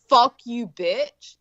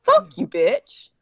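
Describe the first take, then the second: First: Firm, punched insult, falling away on the last word; curt mock-serious put-down; hostile demo. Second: High, drawn-out "Fuck you, bitch"; high-pitched, slow mock insult on "Fuck you, bitch"; emphatic insult demo. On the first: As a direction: say it as a real insult. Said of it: "that's very different". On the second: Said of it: "that's different than like". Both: Shown as a demonstration.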